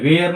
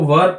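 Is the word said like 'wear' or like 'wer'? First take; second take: wear; wer. First: The word has a long vowel, like 'wear'. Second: The word has a short vowel, like 'wer'. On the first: The speaker calls it wrong. "वेयर नहीं पढ़ते" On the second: The speaker calls it right. "इसको वर पढ़ते हैं"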